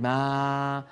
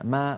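First: The vowel is said with exaggerated mouth opening. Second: The vowel is said with moderate mouth opening. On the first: The speaker calls it wrong. "ولا تقولي ما. لا تبالغي بإبعاد الفكين عن بعضهما" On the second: The speaker calls it right. "فتح العربي للفم فتح وسط لا مبالغة فيه"

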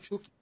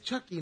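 First: The name has a Puerto Rican Spanish pronunciation. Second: The name has an English-style pronunciation. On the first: The speaker calls it wrong. "no Chucky. Chucky es la versión boricua" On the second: The speaker calls it right. "es Chucky"

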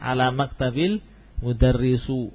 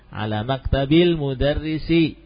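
First: The last word ends with a 'u' vowel. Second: The last word ends with an 'i' vowel. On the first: The speaker calls it wrong. "jelas salah" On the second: The speaker calls it right. "dia selalu kasrah"

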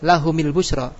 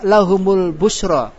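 First: The vowel after the m is i. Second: The vowel after the m is u. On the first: "boleh gak kasro?" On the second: "Kenapa memakai harokat doma?"

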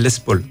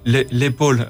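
First: It is pronounced like the English name Les Paul. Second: It is pronounced as the French word épaule. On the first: "mais c'est [name], comme les guitares" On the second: "Ça doit être l'épaule en français"

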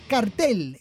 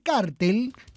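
First: The stress is on the last syllable. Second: The stress is on the first syllable. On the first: This matches the Spanish pronunciation. The speaker calls it right. "es cartel en alemán" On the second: This copies the American English pronunciation. The speaker calls it wrong. "como dicen algunos, es incorrecto"

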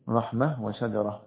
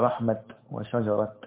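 First: Each word ends with an h sound at the pause. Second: Each word ends with a t sound at the pause. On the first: "فالأفصح الوقف بالهاء نحو رحمة وشجرة" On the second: "وبعضهم يقف بالتاء فيقول ماذا؟"

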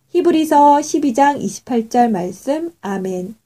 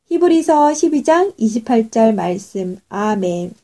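The two takes are said the same way.

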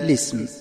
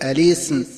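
First: It begins directly with lam carrying an i vowel. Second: It begins with a glottal stop before the lam. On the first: "حذف همزة الوصل والبدء بلام مكسورة هكذا" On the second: "البدء بهمز الوصل مع نقل حركة الهمزة هكذا"

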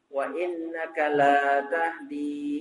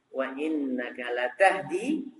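First: The vowel after the l is long. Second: The vowel after the l is short. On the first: You do not guide to the straight path. The speaker calls it wrong. "Kalau lamnya dipanjangkan artinya berubah" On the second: You truly do guide to the straight path. The speaker calls it right. "Yang benar lanya enggak panjang"

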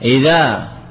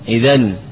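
First: The word ends with a long a vowel. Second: The word ends with an n sound. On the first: The speaker calls it right. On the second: The speaker calls it wrong.

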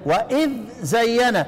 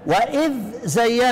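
First: The dh sound is pronounced clearly before the z. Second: The dh sound is pronounced clearly before the z.

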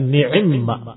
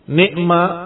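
First: An 'i' vowel follows the 'ain' sound. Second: There is no vowel after the 'ain' sound.

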